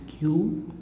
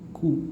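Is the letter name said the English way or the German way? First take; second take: English; German. First: The letter is said as in English. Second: The letter is said as in German. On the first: The speaker calls it wrong. "not Q" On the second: The speaker calls it right. "only Ku"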